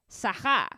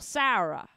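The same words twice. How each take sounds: First: It is said in a French accent. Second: It is said in a New York accent.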